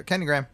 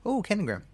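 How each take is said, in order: First: A louder, higher doorstep call; lightly voiced skit shark. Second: High, louder, gullible delight; mock delighted surprise. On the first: Shark posing as delivery man at the door, mock announcing. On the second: Resident fooled by shark at the door, mock delighted. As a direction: leap up in pitch as if pleased by it.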